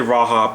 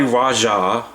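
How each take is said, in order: First: The middle consonant is an H sound. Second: The middle consonant is a J sound. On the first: It reflects local Spanish-influenced habit. "pronouncing the J as a H" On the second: It is probably the intended name. "it's probably Raja"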